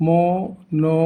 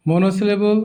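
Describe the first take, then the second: First: monosyllable in five separate beats; broken into syllables. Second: Said in the usual way. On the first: Shown as a demonstration. Teacher breaking the word for learners, monosyllable syllable by syllable. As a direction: pause after every syllable of monosyllable. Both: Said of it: "ভেঙে ভেঙে দেখানো হয়েছে".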